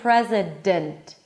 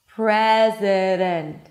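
First: The D fully blocks the air. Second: The D is a quick light tap. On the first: The speaker calls it wrong. "I'm not saying president" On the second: The speaker calls it right. "super soft, super sweet, super light"

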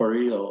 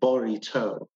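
First: It is said with a typical American pronunciation. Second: It is said in an imitated, put-on pronunciation. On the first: "like an average American called a burrito" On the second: "or according to Hillary Clinton"

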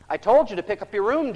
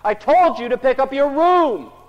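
First: The sentence is said at normal pace and volume. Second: The sentence is said at a raised, loud volume. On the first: "what do we say?" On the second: "so we say it louder"

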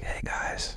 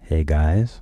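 First: It is said in a whisper. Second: It is said in a normal voice.

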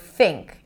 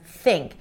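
First: The th is made with the bottom lip. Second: The th is made with the tongue tip. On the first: The speaker calls it wrong. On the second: The speaker calls it right.

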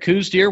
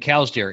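First: The first word rhymes with 'coos'. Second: The first word rhymes with 'cows'. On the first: "If we said coos deer" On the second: "not saying cows deer"

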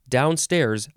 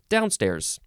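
First: Both syllables carry equal stress. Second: The first syllable carries stronger stress. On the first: "the first form of downstairs is also downstairs, both are emphasized" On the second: "The second form of downstairs, the first syllable is emphasized more"

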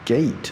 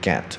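First: The vowel is a long 'ay' sound. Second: The vowel is a short 'eh' sound. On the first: The speaker calls it right. "gate，OK，ate" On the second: The speaker calls it wrong. "很多人就给我念成get"

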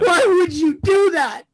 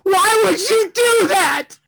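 First: It is sobbed with toned-down emotional intensity. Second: It is sobbed with full emotional intensity.

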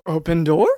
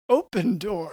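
First: It is said as a question, rising. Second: It is said as a statement, falling.

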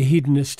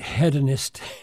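First: The word is pronounced the American way. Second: The word is pronounced the Canadian way. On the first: "we Americans, we say hedonist, and that's right" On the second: "for those who might be listening in Canada, they pronounce it hedonist"

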